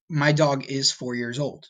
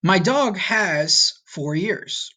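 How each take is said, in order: First: Said in the usual way. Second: Slow literal translation. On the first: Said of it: "you would say". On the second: Shown as a demonstration. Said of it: "Or in English, you would say".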